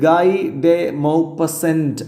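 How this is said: The name is pronounced the English way. "English ഉച്ചാരണത്തിൽ നമുക്ക് അങ്ങനെ പറഞ്ഞാൽ കുഴപ്പമൊന്നുമില്ല"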